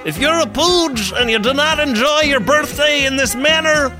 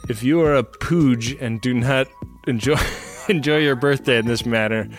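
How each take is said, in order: First: It is read in a put-on character voice. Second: It is read in the speaker's ordinary voice.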